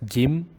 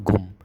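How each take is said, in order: First: A clear I vowel follows the G. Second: A clear U vowel follows the G. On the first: "Don't make it as Gim" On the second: "or Gum"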